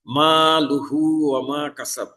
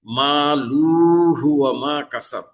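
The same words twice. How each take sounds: First: লুহু with short quick u; মা লুহু ওয়া মা কাসাব, vowel kept short; correct short vowel. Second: লুহু ওয়া with the vowel stretched long, slow; মা লুহু ওয়া মা কাসাব with ওয়া dragged out; wrong drawn-out vowel. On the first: Teacher recites the correct short vowel for students. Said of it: "এটা হরকত উচ্চারণ দ্রুত করতে হবে". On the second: Teacher shows students the wrongly lengthened vowel, slow stretched recitation. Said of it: "যদি মাদ করে পড়ে ফেলি". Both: Shown as a demonstration.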